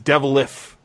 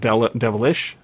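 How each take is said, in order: First: The word ends with an 'f' sound. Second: The word ends with an 'sh' sound. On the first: "it says devilish" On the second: "instead of devilish"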